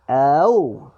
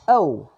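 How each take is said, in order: First: The syllable is said at a slower pace. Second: The syllable is said at a faster pace.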